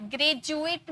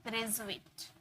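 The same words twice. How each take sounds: First: ग्रेजुएट with a hard j, "gre-ju-ate"; wrong pronunciation. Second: ग्रेजुएट softly, with a zh, "gre-zhu-ate"; quiet model of ग्रेजुएट with zh; correct pronunciation. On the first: Teacher shows students the mistaken ग्रेजुएट with a j. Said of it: "ग्रेजुएट नहीं". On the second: Teacher models the correct ग्रेजुएट for students with zh. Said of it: "ज का sound आता है". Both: Shown as a demonstration.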